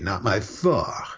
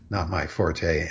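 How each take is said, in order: First: Forte is given its French pronunciation. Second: Forte is given its English pronunciation. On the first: "if you were going to be genuinely French, that's what you would say" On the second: "and that is the English pronunciation"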